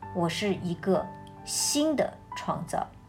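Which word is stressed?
新的. The stress is on the word 新的.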